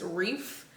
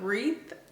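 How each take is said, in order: First: The word ends with an f sound. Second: The word ends with a th sound. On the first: This is how the family from the South says it. The speaker calls it wrong. "like with a F on the end" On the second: This is the proper way to say it. The speaker calls it right. "T H"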